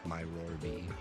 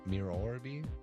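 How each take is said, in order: First: The first part does not sound like mirror. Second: The first part sounds like the word mirror. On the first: "something tells me that it's not pronounced that way" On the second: "my mind wants to say mirror"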